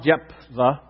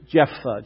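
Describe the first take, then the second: First: The first syllable is said with a p sound. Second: The first syllable is said with an f sound. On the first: The speaker calls it wrong. "It is really not Jephthah" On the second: The speaker calls it right. "just like J-E-F-F"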